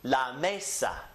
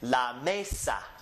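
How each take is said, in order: First: The stress is on the first syllable. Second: The same.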